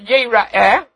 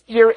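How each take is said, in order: First: The word is read with its usual vowels. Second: The word is read with different vowels. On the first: The males will appear before God. "the word over there, yira'eh, is spelled yud resh aleph hey" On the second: The males will see God. "if you didn't know how to pronounce it, you would pronounce it as yira'eh"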